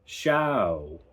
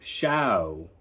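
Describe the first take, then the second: First: The vowel starts open and glides like ow. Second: The same.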